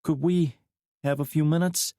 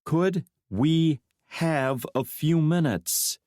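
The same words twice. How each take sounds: First: Higher woman's voice, asking lightly; woman's request. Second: Could we have a few minutes said slow, every word weighted; emphasis on every word. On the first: McKnight asking to be alone with Drake, lightly. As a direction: ask the first time, no push. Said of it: "McKnight repeated, putting emphasis on every word". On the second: McKnight insisting on privacy, every word stressed slowly. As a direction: lean on each word in turn, slowly. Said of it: "putting emphasis on every word". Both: A narrator's reading.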